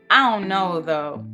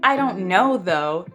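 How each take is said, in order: First: The words are mushed together casually. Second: The words are said separately and clearly.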